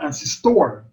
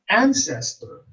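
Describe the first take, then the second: First: The stress is on a later syllable. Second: The stress is on the first syllable. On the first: The speaker calls it wrong. "We don't say ancestor" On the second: The speaker calls it right. "the first syllable is accented"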